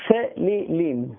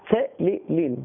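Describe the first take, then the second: No difference in how they are said.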